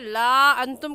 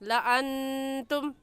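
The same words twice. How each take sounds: First: The written alif is voiced, giving a long vowel. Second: The alif is silent, giving a short vowel. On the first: The speaker calls it wrong. "इसे ला अंतुम कहना गलत है" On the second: The speaker calls it right. "सही है ला अंतुम"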